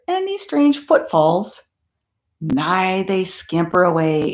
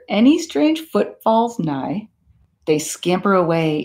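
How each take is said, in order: First: The pause comes before the word nigh. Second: The pause comes after the word nigh. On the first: The speaker calls it wrong. "I said that wrong" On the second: The speaker calls it right. "I'm trying that one again"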